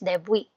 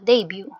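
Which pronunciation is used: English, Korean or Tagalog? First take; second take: Korean; English. First: It is said the Korean way, ending in wi. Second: It is said the English way, ending in byoo. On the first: "ang Korean pronunciation niya is debwi" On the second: "yung English term nila, yung pronunciation nila"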